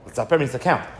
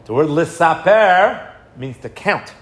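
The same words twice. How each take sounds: First: Said in the usual way. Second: "Lisaper" stretched out, slow and deliberate; teacher stressing "Lisaper" means to count; slow emphatic definition. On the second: Shown as a demonstration. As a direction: spell out the meaning slowly, leaning on "Lisaper".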